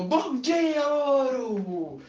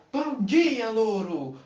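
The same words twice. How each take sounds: First: High loud cheery shout; shouted greeting. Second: High bright call to the parrot; cheery greeting. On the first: Woman shouts good morning to the parrot. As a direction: call out eagerly to the parrot. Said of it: "ela abriu a porta e gritou". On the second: Woman greets her new parrot, high and cheery. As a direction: sing out good morning. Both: Acted.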